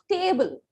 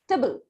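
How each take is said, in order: First: The vowel is a full long A sound. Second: The vowel is a short reduced sound. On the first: The speaker calls it wrong. "not table" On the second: The speaker calls it right. "the A sound will become a short sound"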